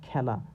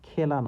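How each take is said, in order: First: The first vowel is an open ae sound. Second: The first vowel is a closed e sound. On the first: The speaker calls it right. "এটা খেলা" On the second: The speaker calls it wrong. "এটা কিন্তু খেলা না"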